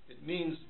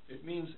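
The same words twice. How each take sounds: No difference in how they are said.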